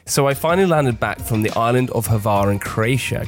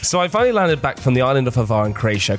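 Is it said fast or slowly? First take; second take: slowly; fast. First: It is said at a slower pace. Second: It is said at a fast pace.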